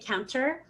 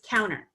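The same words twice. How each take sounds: First: The T after the N is clearly pronounced. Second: The T after the N is dropped entirely. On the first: The speaker calls it wrong. "I don't say counter" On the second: The speaker calls it right. "So it's just counter"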